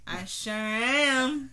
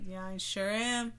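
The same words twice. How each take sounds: First: Slow, louder put-on voice. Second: Said in the usual way. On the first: Shown as a demonstration. Repeating her line to partner in a slow silly voice. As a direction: stretch it out in a silly voice.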